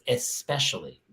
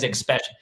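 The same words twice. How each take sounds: First: The word starts with a plain 'es' sound. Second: The word starts with an 'eks' sound. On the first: The speaker calls it right. "It's especially" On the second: The speaker calls it wrong. "it's not X"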